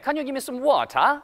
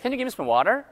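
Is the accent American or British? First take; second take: British; American. First: It is said in a British accent. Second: It is said in a fast American accent. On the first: "영국 사람들 어떻게 발음해요? ... 이렇게 들려요" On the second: "미국 사람도 어때요? 실용적이잖아요. ... 이렇게 들려요"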